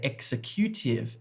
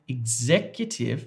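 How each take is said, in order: First: The stress falls on an unexpected syllable. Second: The stress falls on the expected syllable. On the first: The speaker calls it wrong. "Hopefully you did not say executive" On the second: The speaker calls it right. "we have this word here"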